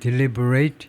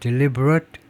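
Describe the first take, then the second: First: It is said in its verb pronunciation. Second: It is said in its adjective pronunciation. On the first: It means to consider carefully. "동사가 아니면 deliberate 이렇게 발음을 하고 심사숙고하다가 되고" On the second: It means intentional. "형용사면 deliberate dismantling 고의적인 해체다"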